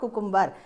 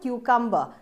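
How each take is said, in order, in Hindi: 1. पहला अक्षर 'koo' जैसा सुनाई देता है। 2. पहला अक्षर 'kyoo' जैसा सुनाई देता है। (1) "इट इज नॉट कुकुम्बर" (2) "इसको बोलते हैं हम क्यूकम्बर"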